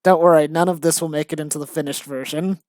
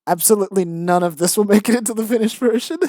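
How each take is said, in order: First: Said in the usual way. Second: "Absolutely none" insisted, fast, pitch climbing higher; emphatic reassurance. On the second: Real, not acted. Writer reassuring about a silly draft, fast and emphatic on "Absolutely". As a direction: rush it emphatically, "Absolutely" hit, rising to the end.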